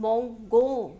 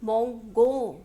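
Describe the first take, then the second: First: The g is hard, like the g in go. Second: The g is hard, like the g in go.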